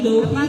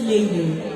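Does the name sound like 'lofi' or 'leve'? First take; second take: lofi; leve. First: The name sounds like 'low-fee'. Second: The name sounds like 'lay-vay'. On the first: The speaker calls it wrong. "baka ang alam nyo yung pronunciation is lo, Lofi, Lofi, gano'n" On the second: The speaker calls it right. "But it's pronounced as Leve"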